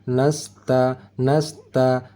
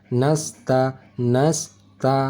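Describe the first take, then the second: The two takes are said the same way.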